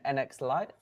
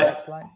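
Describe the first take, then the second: First: The first part is spelled out as letters. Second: The first part is said as one word. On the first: "do you pronounce it N- NX Lite?" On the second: "Or Next Lite?"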